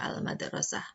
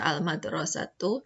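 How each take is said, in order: First: The word ends with a soft 'h' sound. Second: The word ends with a full 'tu' syllable. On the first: "bisa dibaca al-madrasah" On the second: "Ini bisa dibaca al-madrasatu"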